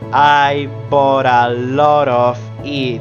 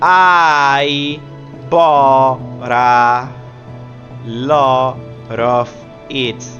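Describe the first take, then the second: First: The words link and the Ts become flaps. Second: Each word is separate with hard T sounds. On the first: "it sounds like" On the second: "If we read it like in Spanish"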